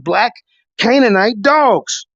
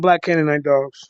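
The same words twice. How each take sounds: First: It is said in a loud, raised voice. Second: It is said in a lowered, quieter voice.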